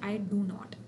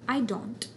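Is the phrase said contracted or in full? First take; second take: full; contracted. First: Both do and not are fully sounded and stressed. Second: It is one weak, unstressed contracted syllable. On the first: "इस पर stress आ रहा है, डू पे भी आ रहा है, नॉट पे भी आ रहा है" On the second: "अब इस पर स्ट्रेस नहीं है आई डोंट"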